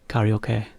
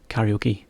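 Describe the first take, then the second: First: It is said with Japanese sounds and intonation. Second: It is said with English sounds and stress. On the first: "Or as you might say" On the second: "Just we kind of say karaoke"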